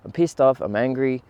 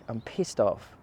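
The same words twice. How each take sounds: First: Pissed off punched, louder and higher; angry. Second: Said in the usual way. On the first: Retold or imitated. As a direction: let the anger burst out on the repeat. Repeats anger with force.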